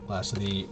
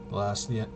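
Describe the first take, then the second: No difference in how they are said.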